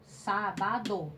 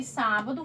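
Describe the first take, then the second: First: "sábado" drawn out slowly as sá-ba-do; split into syllables. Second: Said in the usual way. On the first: Shown as a demonstration. Teacher splitting a chosen word for pupils, "sábado" in slow separate syllables. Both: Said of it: "separe essas palavras em sílabas".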